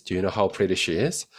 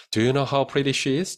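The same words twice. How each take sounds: First: Said in the usual way. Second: Slow, clear question; slow model read. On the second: Shown as a demonstration. Teacher reads the model question slowly. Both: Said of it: "확인해 볼 수 있겠죠".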